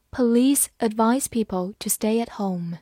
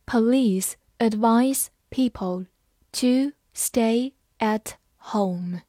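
First: Said in the usual way. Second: Slow, each word set apart; slow read-aloud. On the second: Shown as a demonstration. Teacher models the police sentence for learners, slowly word by word. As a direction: read it slowly with pauses between words. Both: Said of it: "好，慢慢来读".

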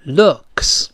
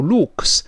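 First: Looks with short relaxed oo; correct pronunciation. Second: Looks with a tense long oo; wrong pronunciation. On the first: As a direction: model looks with a lax vowel. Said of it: "它是发呃". (looks读短促放松的元音) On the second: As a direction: say looks wrongly, vowel like Luke's. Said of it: "我说过不要读looks". (looks错读成长音u) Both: Shown as a demonstration.

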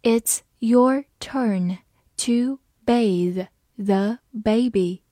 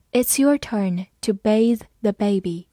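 First: Slow, word by word; slow reading. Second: Said in the usual way. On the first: Shown as a demonstration. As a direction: read it slowly with clear gaps between words. (慢读，逐词停顿) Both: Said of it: "慢读一遍".

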